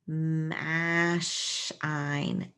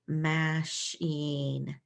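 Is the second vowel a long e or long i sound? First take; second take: long i; long e. First: The second vowel is a long i sound. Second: The second vowel is a long e sound. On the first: The speaker calls it wrong. "That's not it" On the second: The speaker calls it right. "Let's try E, because I consonant E can be a long E sound"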